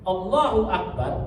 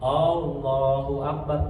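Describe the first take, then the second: First: The opening vowel is short. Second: The opening vowel is drawn out long. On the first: It states that God is the greatest. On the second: It asks whether God is the greatest.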